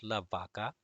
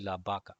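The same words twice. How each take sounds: First: La vaca with an English V, vah-kah; wrong V sound. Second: La vaca with the V close to a B. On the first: Teacher warns students off: la vaca with English V. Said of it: "not la vaca". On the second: Teacher gives students the right sound: la vaca as baca. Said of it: "the V is gonna make a sound of B". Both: Shown as a demonstration.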